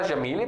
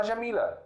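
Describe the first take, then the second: First: "Jamile" said with the final vowel as a clear E, Syrian style; Levantine ending. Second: "Jamila" said with the final vowel as a clear A, classical Arabic style; classical ending. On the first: Teacher shows students the Syrian "Jamile" with an E ending. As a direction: end "Jamile" on an open E sound. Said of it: "na Síria você pode falar". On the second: Teacher gives students the classical "Jamila" with an A ending. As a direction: end "Jamila" on an open A sound. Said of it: "pode falar". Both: Shown as a demonstration.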